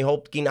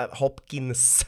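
First: Said in the usual way. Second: Hopkins with a drawn-out final s; slow, careful Hopkins, hissing the last s; corrected pronunciation. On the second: Shown as a demonstration. Podcaster correcting his own slip, Hopkins with emphatic final s. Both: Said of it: "ska du uttala det rätt".

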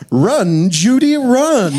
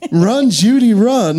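First: High, drawn-out urgent call; urgent line reading. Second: High, sweet fifties housewife call; housewife line reading. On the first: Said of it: "a really fun line reading". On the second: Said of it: "I like the line readings". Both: Retold or imitated.

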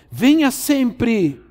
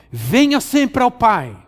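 First: Venha sempre even slower, high, weighted; slower repeat. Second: Slow, high and drawn out on venha; pressing invitation. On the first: Preacher repeating the call to the congregation, slower still. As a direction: lean hard on venha, almost syllable by syllable. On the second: Preacher urging the congregation, slow and high. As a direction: venha stretched and raised, each word slowed. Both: Shown as a demonstration.

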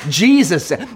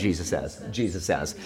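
First: Said in the usual way. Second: Softly said to a neighbor; quiet aside. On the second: Shown as a demonstration. Pastor prompting the congregation, said softly to a neighbor. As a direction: murmur it to the person next to you. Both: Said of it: "Turn to a neighbor and say".

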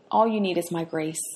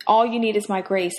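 First: Softer, gentle reassurance; soft and loving, a quiet promise. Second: Said in the usual way. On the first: Acted. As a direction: say it tenderly, like a loving father. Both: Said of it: "the Lord lovingly said to him".

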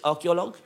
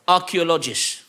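First: "Archaeologue" said ar-kee-o-LOG with a hard g end, rising as a question; checking "Archaeologue", hard g ending, unsure rise; "Archaeologue" tried out with a doubtful lift; unsure wrong word. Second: "Archaeologist" with the -ist ending, falling and settled; "Archaeologist" said as the fix, firm fall; corrected word. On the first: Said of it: "Is that how you say it?". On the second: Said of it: "Okay. Thank you, sir". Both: Real, not acted.

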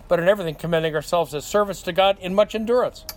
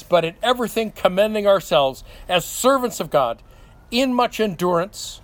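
First: "servants to God in much endurance" read in one quick breath with no break; no pause, run on. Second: Scripture read with a clear pause before "in much endurance"; pause after God. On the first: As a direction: run straight through "God in much endurance" without a comma. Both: Shown as a demonstration. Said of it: "without the comma".

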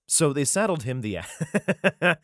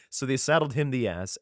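First: Slow, giggling read; trying to read through laughter; cracking up mid-verse; laughing through it. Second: Said in the usual way. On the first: Real, not acted.

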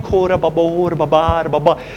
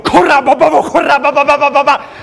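First: Said in the usual way. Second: Louder, higher, urgent praying in tongues; higher, louder tongue-speaking with rising authority; tongues stepped up. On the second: Shown as a demonstration. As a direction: kick the tongues up a notch. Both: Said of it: "my tongues went up a notch".

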